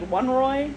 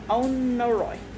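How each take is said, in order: First: The word begins with a 'won' sound. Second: The word begins with an 'oh' sound. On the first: The speaker calls it wrong. "I was saying like one Roy. I didn't think that was it" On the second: The speaker calls it right. "but it's Onoroi"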